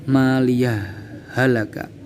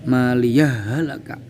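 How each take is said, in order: First: A brief breathless pause separates the words. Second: The words run together, the h sounds merged. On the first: "dengan sakta" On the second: "dibaca id idgham"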